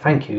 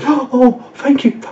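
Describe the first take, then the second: First: It is said simply and plainly. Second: It is said in a gushing, exaggerated way.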